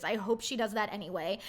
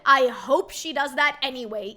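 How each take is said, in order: First: Said in the usual way. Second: Loud, punchy "I hope she does that anyway"; first time loud and forceful; emphatic. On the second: Real, not acted. Emphatic wish, repeated.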